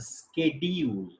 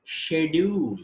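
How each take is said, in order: First: American "schedule" as /skediul/ with SK; American English "schedule". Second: British "schedule" as /ʃedul/ with SH; British English "schedule". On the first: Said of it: "pronounced as schedule in American". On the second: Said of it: "We say schedule in British English". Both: Shown as a demonstration.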